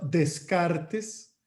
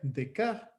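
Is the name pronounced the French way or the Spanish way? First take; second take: Spanish; French. First: The name is read with Spanish sounds. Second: The name is said with French sounds.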